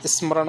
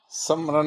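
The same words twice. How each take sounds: First: स्मरण with 's' and 'm' joined; correct form. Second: स्मरण with a vowel after 's'; wrong form. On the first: Teacher giving the right word, स्मरण as is-ma-ran. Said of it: "होता है". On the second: Teacher ruling out the error, स्मरण as sam-ran. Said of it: "नहीं आता". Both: Shown as a demonstration.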